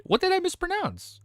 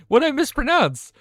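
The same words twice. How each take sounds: First: Puzzled question. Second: Louder repeat. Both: Real, not acted.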